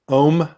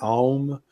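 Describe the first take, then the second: First: It is one long O vowel. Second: Faint A and U sounds are heard. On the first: "just Om with a long O" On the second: "you'll hear the A a little bit and the U in it"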